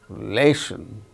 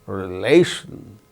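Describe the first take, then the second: Both takes have the same delivery.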